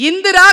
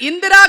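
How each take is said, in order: Both takes have the same delivery.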